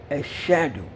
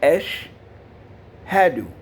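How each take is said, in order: First: The sh runs straight on with no h. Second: A separate h follows the sh sound. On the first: The speaker calls it wrong. "Many people make a mistake and say Eshadu" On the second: The speaker calls it right. "It's Esh Hadu"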